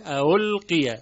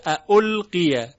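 First: اَأُلْقِیَ with a gliding into u, no hard stop; softened second hamza. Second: اَأُلْقِیَ with two distinct hamzas, louder; example before softening. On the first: Teacher demonstrates tashil, softened hamza. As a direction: ease through the opening of اَأُلْقِیَ. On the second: Teacher names the word, hamzas separate. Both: Shown as a demonstration.

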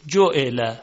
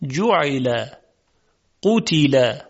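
First: جعل with Persian short vowels; Persian pronunciation. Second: جعل and قتل with Arabic short vowels; Arabic pronunciation. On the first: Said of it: "در زبان فارسی ما میگوییم". (تلفظ فارسی) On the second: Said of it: "اما در زبان عربی میگوییم". (تلفظ عربی) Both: Shown as a demonstration.

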